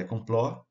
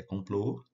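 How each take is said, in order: First: "complô" mispronounced with an open final o, "compló"; wrong open ó. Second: "complô" with a closed, rounded final o; correct closed ô. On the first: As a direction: open up the last vowel of "complô" to "ó". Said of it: "Não é complô". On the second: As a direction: close the last vowel of "complô", as in "avô". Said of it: "é complô". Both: Shown as a demonstration.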